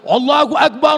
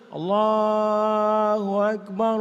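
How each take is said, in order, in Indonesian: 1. Diserukan dengan keras dan lantang. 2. Diucapkan dengan lembut dan pelan. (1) "azan untuk mengusir rasa takut" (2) "Itu azan untuk bayi. ... terlalu slow"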